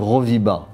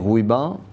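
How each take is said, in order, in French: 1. Le milieu du nom a un son v. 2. Le milieu du nom a un son w. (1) "les Européens prononçaient Roviba" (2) "quand on a dit Rouiba"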